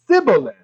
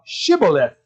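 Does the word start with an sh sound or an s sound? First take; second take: s; sh. First: It begins with an s sound, Ephraimite style. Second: It begins with an sh sound.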